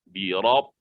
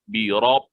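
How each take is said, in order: The two takes are said the same way.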